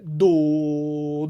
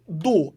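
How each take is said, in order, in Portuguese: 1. A sílaba começa suave, com uma soltura leve. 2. A sílaba começa com um ataque forte e duro. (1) "mais a saída" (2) "e não do, a chegada. Senão você vai marcar muito forte"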